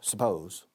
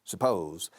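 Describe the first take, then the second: First: The stress is on the second syllable. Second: The stress is on the second syllable.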